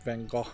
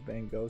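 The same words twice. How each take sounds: First: The name is said with a Dutch-style pronunciation. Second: The name is said with the common English pronunciation. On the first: "is the right way to pronounce it" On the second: "most people recognize it in the West as that name"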